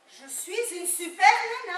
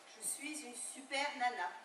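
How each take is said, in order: First: It is said loudly. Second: It is said at a softer volume.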